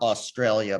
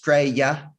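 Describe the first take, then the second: First: The word is said in full, all syllables. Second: The word is shortened to two syllables. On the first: "not Australia" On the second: "it's two syllables"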